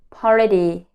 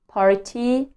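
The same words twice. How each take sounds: First: The t is a soft flap. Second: The t is a crisp t. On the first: The speaker calls it right. "I learned to say party" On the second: The speaker calls it wrong. "Instead of saying party"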